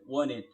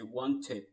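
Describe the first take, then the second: First: It is said with an American accent. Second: It is said with a British accent. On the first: "American style, American accent" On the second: "But the British style, they would say wanted"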